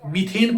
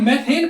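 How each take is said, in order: First: The first vowel sounds like 'ee'. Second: The first vowel sounds like 'ay'. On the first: The speaker calls it right. "मीथेन पढ़ते हैं इसे" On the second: The speaker calls it wrong. "इसे मैथेन पढ़ोगे, गलत"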